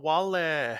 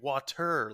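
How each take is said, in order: First: The middle consonant is pronounced as an L. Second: The middle consonant is pronounced as a T. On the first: A toddler is saying it his own way. The speaker calls it wrong. "he always says it with like an L instead of a T" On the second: An adult is modeling the standard form. The speaker calls it right. "try to get him to pronounce it correctly"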